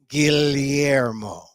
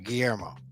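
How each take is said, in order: First: Each syllable is said slowly and carefully. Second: It is said with a Spanish pronunciation. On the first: The speaker calls it right. "I slow down and get every syllable" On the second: The speaker calls it wrong. "the Spanish way"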